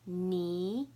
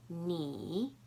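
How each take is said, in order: First: The pitch rises from mid to high. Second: The pitch dips low, then rises.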